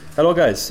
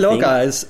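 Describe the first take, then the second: First: It is spoken in a South African accent. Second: It is spoken in a German accent. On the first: "I've decided you're South African" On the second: "That's German"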